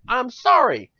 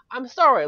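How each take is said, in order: First: Higher, louder mock apology, stretched sorry. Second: High, loud sorry, a bit quicker; loud apology. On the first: Ranting gamer apologizing to listeners, loud. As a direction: exclaim sorry with a high falling tune. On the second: Ranting gamer repeats apology, high and loud. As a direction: say sorry again, shorter and higher. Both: Real, not acted.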